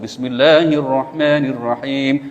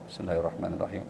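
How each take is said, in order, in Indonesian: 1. Frasa itu diucapkan dengan keras dan jelas. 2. Frasa itu diucapkan dengan lembut dan pelan. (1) "yang bismillah dikencengin" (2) "bismillahnya pelan-pelan"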